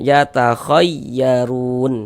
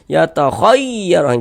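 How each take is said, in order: First: The raised syllable is lifted only slightly. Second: The raised syllable is pushed up far too much. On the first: The speaker calls it right. "seperti itu" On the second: The speaker calls it wrong. "jangan jangan berlebihan gitu"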